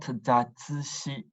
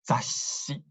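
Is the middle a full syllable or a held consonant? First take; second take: full syllable; held consonant. First: A full tsu syllable is said in the middle. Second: A held consonant replaces the middle syllable. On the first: The speaker calls it wrong. "It's not zatsushi" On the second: The speaker calls it right. "it's zashi"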